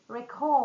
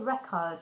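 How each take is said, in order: First: The stress is on the second syllable. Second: The stress is on the first syllable. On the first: The word is used as a verb. "But the verb will be record" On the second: The word is used as a noun. "it's going to be a noun"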